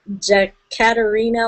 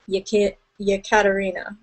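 First: The name begins without a Y sound. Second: The name begins with a Y sound. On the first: The speaker calls it wrong. "I said Jekaterina last week" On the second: The speaker calls it right. "they pronounce it with the Y"

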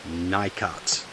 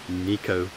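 First: The name is said in the American way. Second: The name is said in the non-American way. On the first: The speaker calls it wrong. "to my American friends, ... not Nicot" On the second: The speaker calls it right. "the correct pronunciation is Nicot"

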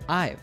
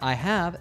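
First: The word 'have' is contracted to 've. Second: The word 'have' is said in full. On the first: "let's reduce the word have" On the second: "Instead of I have"

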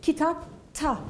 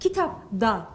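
First: The suffix begins with a voiceless t sound. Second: The suffix begins with a voiced d sound. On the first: The speaker calls it right. "kitap ta diyorum" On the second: The speaker calls it wrong. "kitap da değil"

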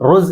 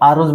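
First: The word starts directly with a consonant sound. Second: The word starts with a short vowel sound. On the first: This is how people actually say it in everyday speech. "ഈ അലിഫിനെ അവർ ഉച്ചരിക്കാറില്ല. അവൽ റോസ് എന്ന് മാത്രമേ പറയുള്ളൂ" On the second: This is the full standard form of the word. "ശരിക്ക് അറുസ് ഇവിടെ അലിഫുണ്ടാവും"

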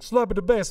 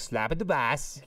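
First: It is said in a Jamaican accent. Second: It is said in a Borat-like accent.

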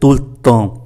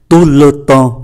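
First: The words run together quickly, the vowel reduced. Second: Each word is said fully and separately.

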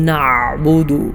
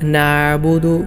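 First: The middle throat sound is forced and very heavy. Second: The middle throat sound is left out entirely. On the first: "ഐനിനെ ശക്തമായി വളരെ കട്ടിയോടുകൂടെ ഉച്ചരിക്കാറുണ്ട്" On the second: "ഐനില്ലാത്തതുപോലെയും ഉച്ചരിക്കാറുണ്ട്"

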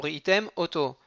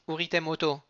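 First: The two words are kept clearly separate. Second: The two words run together without a break. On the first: The speaker calls it right. "Attention, uritem, auto. Pas les coller" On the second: The speaker calls it wrong. "pas dire uritem auto"

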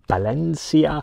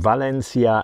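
First: The name begins with a B sound. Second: The name begins with a V sound. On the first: The speaker calls it right. "the Spanish pronunciation is with a B" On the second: The speaker calls it wrong. "I keep on saying Valencia"

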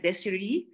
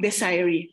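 First: Each syllable of the name is said separately. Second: The name is said like the word desire. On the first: "Some can pronounce my name by syllabication" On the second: "from the word desire"

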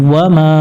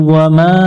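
No difference in how they are said.

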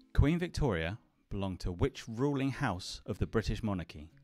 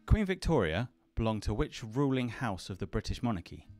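Both takes have the same delivery.

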